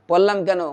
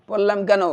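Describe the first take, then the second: The two takes are said the same way.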